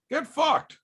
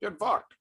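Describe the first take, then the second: First: High, snide brush-off; mock get lost. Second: Quieter, higher tossed-off jab; softer retake. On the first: Streamer dismissing a chatter, sneering high jab. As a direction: toss it off with a sneering pitch jump. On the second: Pretend. Streamer retrying his comeback to chat, throwaway and soft. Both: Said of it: "How's that?".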